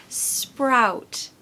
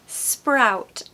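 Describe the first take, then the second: The two takes are said the same way.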